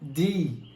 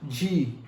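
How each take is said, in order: First: The letter is said with a plain 'd' sound. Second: The letter is said with a soft 'dj' sound. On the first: The speaker calls it right. "mas sim D" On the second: The speaker calls it wrong. "Não é G"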